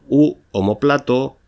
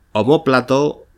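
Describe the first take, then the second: First: Omóplato said as o-mo-PLA-to, stress on PLA; unaccented omoplato. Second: Omóplato with stress on the second syllable, o-MÓ-pla-to. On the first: Teacher giving the alternative form, omóplato stressed on PLA. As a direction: move the weight of omóplato to PLA. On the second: Teacher giving the accented form, omóplato stressed on MÓ. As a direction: lean on MÓ in omóplato. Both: Shown as a demonstration. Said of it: "con tilde o sin ella".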